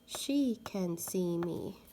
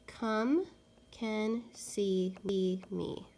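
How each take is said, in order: First: She can see me read slowly and evenly; slow clear trial reading; trying out a sentence. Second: Slow hushed trial reading; trying out a sentence. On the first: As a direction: read the fitting sentence carefully. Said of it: "Let's try the word she". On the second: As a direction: come can see me read slowly and whispered. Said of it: "let's try the word come first". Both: Shown as a demonstration.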